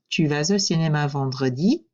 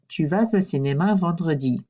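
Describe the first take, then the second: First: The voice rises at the end. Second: The voice falls at the end. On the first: It is a question. "My voice goes up at the end" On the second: It is a statement. "Notice how my voice drops at the end"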